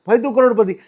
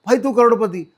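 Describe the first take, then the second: Both takes have the same delivery.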